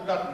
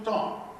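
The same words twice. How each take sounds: First: The name is pronounced the plain English way. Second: The name is pronounced with a French sound. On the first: The speaker calls it wrong. "it is not the Dutton agency" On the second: The speaker calls it right. "it's the Dutton. Great French influence"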